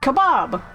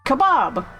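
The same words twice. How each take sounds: First: It is said with an American pronunciation. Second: It is said with an American pronunciation.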